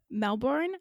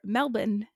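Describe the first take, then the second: First: Melbourne is said without an Australian pronunciation. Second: Melbourne is said with an Australian pronunciation.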